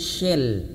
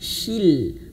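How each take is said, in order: First: The vowel after 'sh' is a lax 'eh'. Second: The vowel after 'sh' is a full 'ee'. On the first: The speaker calls it wrong. "kalau misalkan kurang dipaksakan bibirnya maka akan terjadi suara shell saja" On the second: The speaker calls it right. "artikulasi huruf shin dia kasroh harus sempurna"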